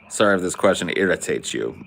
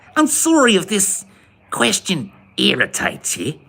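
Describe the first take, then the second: First: It is said in the speaker's normal accent. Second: It is said in a put-on Kiwi accent.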